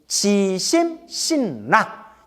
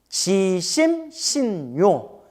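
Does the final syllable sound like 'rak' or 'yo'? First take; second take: rak; yo. First: The last syllable is pronounced rak. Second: The last syllable is pronounced yo. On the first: Believing with a feeling of joy. "락이라고도 발음해요" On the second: Believing with a feeling of liking. "요라고도 발음하고"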